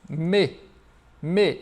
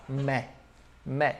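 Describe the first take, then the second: First: "me" said mé, as in French mes; each "me" separate, tight é vowel; closed vowel. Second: "me" said mè, as in French mais; low, isolated "me" with open è; open vowel. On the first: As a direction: isolate "me" with a closed é. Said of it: "Pra você não se confundir". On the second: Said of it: "colocar esse sonzinho do mas". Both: Shown as a demonstration.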